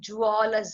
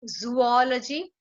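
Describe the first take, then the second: First: The word starts with a j sound. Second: The word starts with a z sound.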